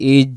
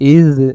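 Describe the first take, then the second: First: The consonant is a j sound. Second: The consonant is a soft dh sound. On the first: The speaker calls it wrong. "যদি বলি ইজ জিম হয়ে যাবে" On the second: The speaker calls it right. "নরম করে ইদ"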